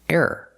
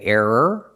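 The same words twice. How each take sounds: First: The word is said quickly. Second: The word is said slowly and carefully. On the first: "or you can say it fast" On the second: "You can say error"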